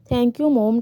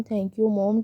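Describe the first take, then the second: First: A touch of tears, mildly voiced; crying while hugging. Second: Said in the usual way. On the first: A narrator's reading. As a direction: say thanks starting to cry, understated. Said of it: "टे इनके गले लगकर रोने लगा". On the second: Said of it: "टे इनके गले लगकर कहने लगा".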